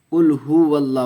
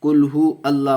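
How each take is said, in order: First: कुल हुवल्लाह with हु flowing into वल्लाह without a break; linked huwallah. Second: कुल हु अल्लाह with हु cut off from अल्लाह; wrong separated hu. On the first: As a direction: join the w to the doubled l in हुवल्लाह. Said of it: "वाव को लाम से मिला करके पढ़ेंगे". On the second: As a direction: break after हु like a separate word. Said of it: "पढ़ते हैं ... नहीं है". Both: Shown as a demonstration.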